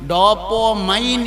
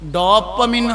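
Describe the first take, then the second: First: The last syllable ends with a long 'mine' sound. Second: The last syllable ends with a short 'min' sound. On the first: "ഡോപ്പോമൈൻ എന്നാണ് പറയേണ്ടത്" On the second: "ഡോപ്പമിൻ hormone എന്ന് പറഞ്ഞു"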